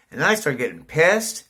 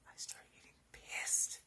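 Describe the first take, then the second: First: Said louder with rising annoyance; getting pissed. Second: Breathy whisper, almost under the breath. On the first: Real, not acted. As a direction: let the irritation push the volume up. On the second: Shown as a demonstration. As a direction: repeat it as a private aside to yourself.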